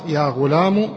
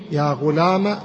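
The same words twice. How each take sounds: First: "غلام" ending in u; damma ending. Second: "غلام" ending in a short a; fatha ending. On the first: Teacher reading out the three endings, "غلام" said ghulamu. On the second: Teacher reading out the three endings, "غلام" said ghulama. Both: Shown as a demonstration. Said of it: "بالثلاث".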